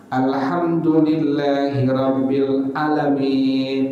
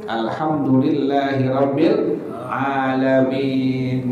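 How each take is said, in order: First: A vowel that should be long is cut short. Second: The long vowel is held out fully. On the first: The speaker calls it wrong. "salah nih" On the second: The speaker calls it right. "mesti panjang nih"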